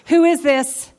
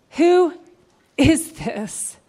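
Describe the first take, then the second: First: Said in the usual way. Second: Suspenseful split question; dramatic pause. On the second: Acted. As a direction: let "Who" hang, then fall on "is this?". Crowd question repeated with pause.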